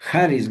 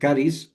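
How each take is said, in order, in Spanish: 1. La palabra empieza con un sonido h aspirada. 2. La palabra empieza con un sonido k fuerte.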